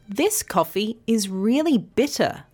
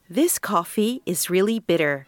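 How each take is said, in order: First: It is said in an Australian accent. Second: It is said in an American accent.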